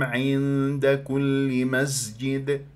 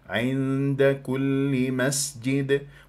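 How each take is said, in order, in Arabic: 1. الحرف صوت ز مجهور. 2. الحرف صوت س مهموس صفيري.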